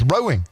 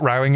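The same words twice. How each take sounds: First: The first vowel sounds like the vowel in 'go'. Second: The first vowel sounds like the vowel in 'cow'. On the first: The word means the boat sport. The speaker calls it right. "it's rowing" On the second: The word means quarrelling. The speaker calls it wrong. "But it's not rowing"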